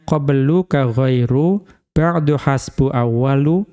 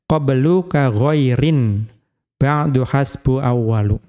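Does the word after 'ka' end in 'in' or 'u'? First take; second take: u; in. First: The word after ka ends in a bare u. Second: The word after ka ends in in. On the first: "didommahkan tanpa tanwin" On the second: "dikasrohkan dengan tanwin"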